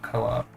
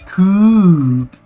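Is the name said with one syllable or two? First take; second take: two; one. First: The name is said as two syllables. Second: The name is said as one syllable. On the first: The speaker calls it wrong. "instead of co-op" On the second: The speaker calls it right. "it's definitely coop"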